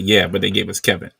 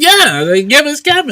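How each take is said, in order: First: Said in the usual way. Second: "Yeah, they gave us Kevin" pitched up and louder, gleeful; excited high reply. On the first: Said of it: "seven nine six said". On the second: Retold or imitated. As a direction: throw back the line, high and delighted. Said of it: "I said".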